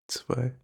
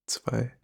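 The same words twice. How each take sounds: No difference in how they are said.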